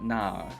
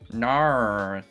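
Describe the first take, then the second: First: The vowel is open with no r colouring. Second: The vowel ends with an r-coloured 'er' sound. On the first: This is how Australians actually say it. The speaker calls it right. "we don't do that er sound. It's more of a nah" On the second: This is how Americans imitate it. The speaker calls it wrong. "Americans do that nar thing"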